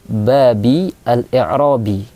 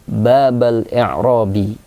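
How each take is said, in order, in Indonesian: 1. Kata pertama diakhiri dengan vokal i. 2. Kata pertama diakhiri dengan vokal a. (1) "Cara baca yang ketiga berharokat kasrah" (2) "cara baca yang kedua berharokat fathah"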